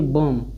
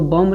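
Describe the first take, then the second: First: The word ends on m with no b. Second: A b sound is heard at the end. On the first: The speaker calls it right. "पढ़ेंगे बी O M बी यानी बम" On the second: The speaker calls it wrong. "इसको बम्ब नहीं पढ़ेंगे"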